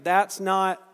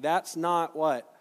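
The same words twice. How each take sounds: First: Louder prompt. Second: Slow the whole line and let not fall, asking for the answer; drawn-out prompt. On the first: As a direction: push That's not harder the second time round. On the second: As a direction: draw out That's not what? and wait for the crowd. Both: Shown as a demonstration. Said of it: "Try it again".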